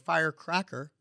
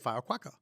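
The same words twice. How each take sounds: First: The R sounds are pronounced clearly. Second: The R sounds are replaced by other sounds. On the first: The speaker calls it right. "which I'm very proud I can say now" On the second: The speaker calls it wrong. "Couldn't say R's or S's"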